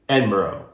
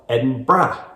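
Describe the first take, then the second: First: It is said in an American accent. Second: It is said in a Scottish accent.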